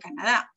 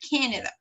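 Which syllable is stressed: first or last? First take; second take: last; first. First: The stress is on the last syllable. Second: The stress is on the first syllable. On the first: The speaker calls it wrong. "no dice Canadá, porque si se dan cuenta no lleva tilde" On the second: The speaker calls it right. "The stressed syllable is here"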